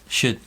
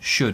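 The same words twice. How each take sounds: First: The vowel is flat and weak. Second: The vowel is said with rounded lips. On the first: The speaker calls it right. "We say it with a flat one" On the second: The speaker calls it wrong. "we don't say sh should, should with a rounded lips"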